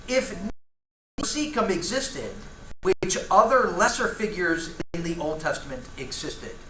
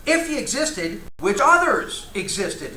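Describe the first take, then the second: First: Emphasis landing on the wrong syllable of existed; reading the quote with the stress in the wrong place; misplaced emphasis. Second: He punched high, which others existed slowed and louder; corrected emphasis. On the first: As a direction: stumble over where the stress goes in existed. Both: Shown as a demonstration. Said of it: "I put the emphasis in the wrong syllable there".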